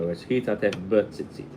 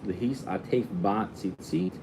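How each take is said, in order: First: The prefix before tzitzit has a short reduced vowel. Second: The prefix before tzitzit has a full 'a' vowel. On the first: It refers to tzitzit in general, indefinitely. "with a shva" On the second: It refers to the specific, definite tzitzit. "with a patach"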